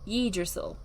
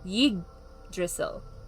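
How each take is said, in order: First: The G sound is light and unemphasized. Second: The G sound is strongly emphasized. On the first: This is the common outside reading of the name. The speaker calls it wrong. "most people thought it was" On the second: This is how the native speakers say the name. The speaker calls it right. "They they emphasize the G part of it"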